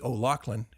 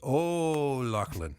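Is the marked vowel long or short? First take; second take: short; long. First: The marked vowel is said short. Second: The marked vowel is said long. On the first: The speaker calls it wrong. "it wouldn't be" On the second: The speaker calls it right. "It would be"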